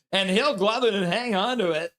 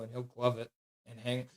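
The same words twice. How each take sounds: First: 1 mock excited. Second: Said in the usual way. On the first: Shown as a demonstration. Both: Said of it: "I have to pretend like it was the greatest save".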